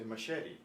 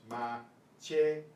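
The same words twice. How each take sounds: First: "machete" as ma-SHET-ee, with an sh and a final ee; anglicized machete; English machete. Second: "machete" with ch as in church and a pure final e, slow; ma-CHE-te, carefully; Spanish machete. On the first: Teacher contrasting the English pronunciation of machete. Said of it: "We say machete". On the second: Teacher modeling machete slowly the Spanish way. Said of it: "but it's machete". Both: Shown as a demonstration.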